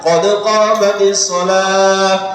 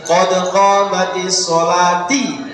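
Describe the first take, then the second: First: The last word ends with an h sound. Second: The last word ends with a ti sound. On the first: The speaker calls it right. "Kalau dipisah tidak ada masalah" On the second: The speaker calls it wrong. "ojo moco ini"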